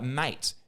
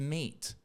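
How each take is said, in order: First: The vowel sounds like the one in 'mate'. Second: The vowel sounds like the one in 'meet'. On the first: This is how the word used to be said. "we used to say it like" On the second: This is how the word is said today. "the vowels changed to"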